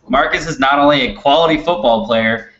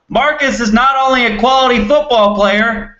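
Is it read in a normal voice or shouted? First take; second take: normal; shouted. First: It is read in a normal voice. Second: It is read loudly, as if shouting.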